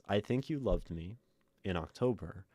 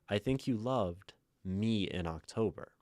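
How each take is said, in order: First: A break falls after 'me', before 'in October'. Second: A break falls after 'loved', before 'me'. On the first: The loving took place in October. "I think you loved me in the time that was October" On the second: The one loved was the October version of me. "Me in October as one noun, one object"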